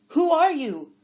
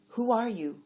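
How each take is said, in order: First: High, loud calling question; yelling. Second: Said in the usual way. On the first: A narrator's reading. Blind man calling after a stranger, loud yell. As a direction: shout the question after her. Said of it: "Adiver yelled".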